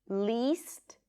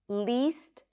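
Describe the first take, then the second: The two takes are said the same way.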